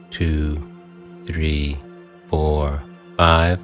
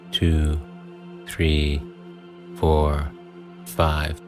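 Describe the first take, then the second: No difference in how they are said.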